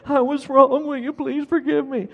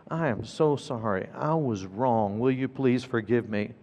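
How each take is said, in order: First: Put-on high little-kid voice parroting an apology; high, dutiful child imitation. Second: Low, soft, sincere apology; hushed, lowered voice of a sorry parent; earnest apology. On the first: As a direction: recite it like a small boy, pitched way up. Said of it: "he dutifully responded". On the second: Retold or imitated. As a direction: apologize quietly and humbly. Father apologizing to crying son.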